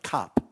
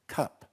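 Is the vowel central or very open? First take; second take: open; central. First: The vowel is a very open 'ah'. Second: The vowel is more central. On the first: This is the older royal way of speaking. "with a very open ah sound" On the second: This is the more recent royal way of speaking. "It's more central vowel"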